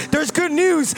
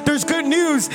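The two takes are said the same way.

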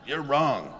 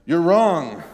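First: Said in the usual way. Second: "You're wrong" shouted higher and louder; loud, higher accusing "wrong"; harsh rebuke. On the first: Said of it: "you know, like". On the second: Shown as a demonstration. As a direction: snap it at him as a rebuke. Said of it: "is what Peter is telling him".

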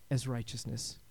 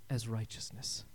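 No difference in how they are said.

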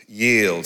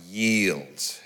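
First: Said in the usual way. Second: A soft, falling "Yield.". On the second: Shown as a demonstration. Preacher urging the congregation to surrender, soft. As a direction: breathe "Yield." gently. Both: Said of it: "Say yes".

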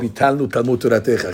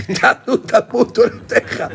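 First: Said in the usual way. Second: High, mock tearful voice, half laughing; imitating breaking down. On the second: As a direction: act out his voice cracking with tears, lightly. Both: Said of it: "Chama Vodah would break down".

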